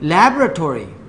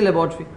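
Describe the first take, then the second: First: It is said with an American accent. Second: It is said with a South Asian accent. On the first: The listener understood it. "ओ you mean लैबोरेटोरी" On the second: The listener did not understand it. "हम तो कहते हैं लेबॉर्ट्री कहते हैं"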